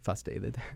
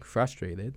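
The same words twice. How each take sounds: First: The R sounds are dropped or weakened. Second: The R sounds are pronounced clearly. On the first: The speaker calls it wrong. "I'll say frustrated" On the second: The speaker calls it right. "instead of saying frustrated"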